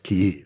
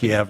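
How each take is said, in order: First: The name follows the Ukrainian pronunciation. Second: The name follows the Russian pronunciation. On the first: This is the form used now. "now it's" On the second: This is the form used in the past. "it used to be"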